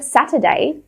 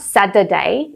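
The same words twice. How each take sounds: First: The middle consonant is a clear T sound. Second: The middle consonant is a hard, stressed D. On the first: "Instead of Saturday" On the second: "So it's not Saturday. It's not a stressed D"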